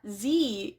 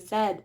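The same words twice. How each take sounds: First: The letter is said the American way. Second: The letter is said the Canadian way.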